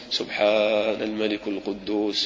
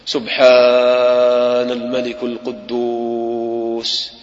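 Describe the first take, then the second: First: It is said at ordinary length and loudness. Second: It is said louder with the voice drawn out.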